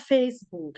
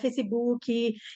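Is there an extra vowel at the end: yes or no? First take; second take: no; yes. First: It ends on the k, with no extra vowel. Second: It has an extra final vowel, Brazilian style.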